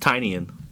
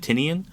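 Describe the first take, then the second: First: The name sounds like 'tiny onion'. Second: The name does not sound like 'tiny onion'. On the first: The speaker calls it right. "I believe it's Tynian because he created ... Tiny Onion" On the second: The speaker calls it wrong. "I've always said Tinian"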